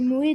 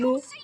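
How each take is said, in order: First: The name ends with an added 'é' sound. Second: The name ends on a plain 'o' sound. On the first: The speaker calls it wrong. "moi je disais Moé dans les anciennes vidéos" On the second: The speaker calls it right. "je prononce euh, Mo"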